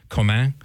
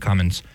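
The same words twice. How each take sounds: First: Comin said French-style, like koh-MAN with a nasal ending; French pronunciation. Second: Commons said as the plain English word; anglicized pronunciation. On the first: Host guessing at a priest's surname, French pronunciation. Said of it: "his name sounds French". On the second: Host guessing the priest's own version, anglicized pronunciation. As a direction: say Commons the English way, with a sounded final S. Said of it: "maybe he just pronounces it Commons". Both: Shown as a demonstration.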